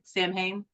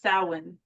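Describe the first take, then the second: First: The first part sounds like 'Sam'. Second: The first part sounds like 'sow'. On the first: The speaker calls it wrong. "My entire life, I was like Sam Hain" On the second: The speaker calls it right.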